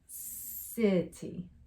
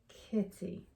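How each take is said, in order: First: The word begins with a soft S sound. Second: The word begins with a hard K sound. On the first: The speaker calls it right. "soft C makes that S sound" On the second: The speaker calls it wrong. "with a hard C sound"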